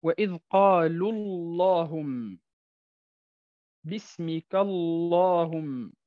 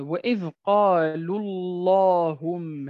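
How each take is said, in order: First: قالوا اللهم slow, thick lam in اللهم; لام مفخمة في اللهم; heavy lam. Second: وإذ قالوا اللهم slow with a thick lam in اللهم; لام مفخمة في اللهم; heavy lam. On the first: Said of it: "معاملة لفظ الجلالة". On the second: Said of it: "معاملة لفظ الجلالة الله". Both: Shown as a demonstration.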